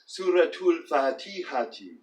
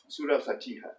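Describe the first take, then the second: First: Linked -atul, and the ending -ati is voiced. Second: The first word ends in -ah, unlinked. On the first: This is a form no one actually uses. "if we were to pronounce this last vowel" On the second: This is the everyday spoken form. "colloquially pronounced"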